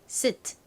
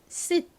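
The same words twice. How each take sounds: First: The final t is lightly but clearly audible. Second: It is said fast with the t nearly silent. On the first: "명확히 발음을 하면 끝에 살짝 트 소리가 들립니다" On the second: "빠르게 발음하면 트 소리가 아주 잦아들어서"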